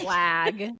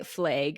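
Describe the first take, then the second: First: It is said with a standard vowel. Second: It is said with a Montana vowel. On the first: This is how people elsewhere say it. "We don't say" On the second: This is how people from Montana say it. "here we say"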